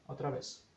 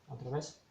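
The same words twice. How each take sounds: No difference in how they are said.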